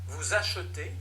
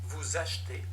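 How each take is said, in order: No difference in how they are said.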